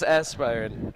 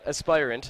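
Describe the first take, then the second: First: It ends like the word 'aspirin'. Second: It ends with an 'ant' sound. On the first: The speaker calls it wrong. "As did I say it right? No, I'm just kidding" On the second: The speaker calls it right. "as I've been corrected"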